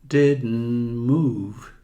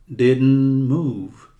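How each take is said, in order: The two takes are said the same way.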